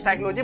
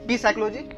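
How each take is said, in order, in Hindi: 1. इस शब्द की शुरुआत s ध्वनि से होती है। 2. इस शब्द की शुरुआत p ध्वनि से होती है। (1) "हम लोग तो साइकोलॉजी बोलते हैं" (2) "ऐसा तो नहीं बोलते"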